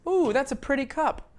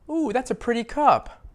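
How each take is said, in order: Both takes have the same delivery.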